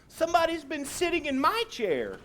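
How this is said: It is said in a middle-sized voice.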